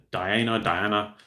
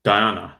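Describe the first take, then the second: First: Diana, Diana said slowly, in two different ways; trying out the name. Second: Said in the usual way. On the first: Shown as a demonstration. Streamer double-checks the vehicle name, slow careful pronunciation. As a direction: test out Diana twice, slowly. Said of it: "something like that". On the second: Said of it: "that's it".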